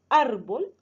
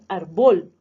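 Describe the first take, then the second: First: The stress is on the first syllable. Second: The stress is on the last syllable. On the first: The speaker calls it right. "Decimos árbol, es la penúltima sílaba donde va el acento" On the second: The speaker calls it wrong. "y no decimos árbol"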